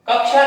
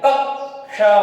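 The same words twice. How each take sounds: First: The joined consonants are blurred together. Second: Both joined consonants are clearly sounded. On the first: The speaker calls it wrong. "कक्षा नहीं" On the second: The speaker calls it right. "जो हलंत लगे हुए हैं उनको भी हल्का सा उच्चारण में लाना पड़ता है"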